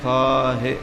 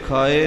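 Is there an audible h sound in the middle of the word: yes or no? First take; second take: yes; no. First: The word is said with an h sound. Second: The word is said without an h sound. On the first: The speaker calls it right. "ਇਹ ਖਾਹੀ ਖਾਹੇ ਹਾਹੇ ਨਾਲ" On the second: The speaker calls it wrong. "ਸੋ ਇਹ ਖਾਏ ਨਹੀਂ ਹੈ"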